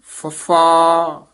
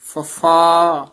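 First: ਫੱਫਾ drawn out very slowly and firmly; aspirated ਫੱਫਾ. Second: ਫੱਫਾ drawn out very slowly, with an f; ਫੱਫਾ with f sound. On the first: Teacher demonstrates the letter name. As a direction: stretch out ਫੱਫਾ with a strong breathy ph. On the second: Teacher gives the correct sound. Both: Shown as a demonstration. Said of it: "ਫੱਫਾ ਉਚਾਰਨ ਕਰਨਾ".

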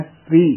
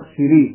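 First: ਸ੍ਰੀ as one syllable "sree"; no vowel between s and r in ਸ੍ਰੀ; joined s and r. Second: ਸ੍ਰੀ said as two syllables "si-ree"; short i between s and r in ਸ੍ਰੀ; sihari on sassa. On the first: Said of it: "ਸੱਸਾ ਹੇਠਾਂ ਰਾਰਾ". (ਸ੍ਰੀ ਵਿੱਚ 'ਸ' ਤੇ 'ਰ' ਜੋੜ ਕੇ) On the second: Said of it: "ਸੱਸੇ ਸਿਹਾਰੀ ਰਾਰੇ ਬਿਹਾਰੀ". (ਸ੍ਰੀ ਨੂੰ 'ਸਿਰੀ' ਵਾਂਗ ਬੋਲੋ) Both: Shown as a demonstration.

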